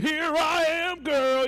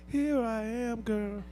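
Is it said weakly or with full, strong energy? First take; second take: strongly; weakly. First: It is said strongly, from the chest. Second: It is said weakly, without much energy.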